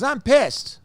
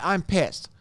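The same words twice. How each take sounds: First: Real anger pushed high and louder; really pissed, voice jumping up. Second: Said in the usual way. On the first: Real, not acted. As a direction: let the anger spill out, pitched up.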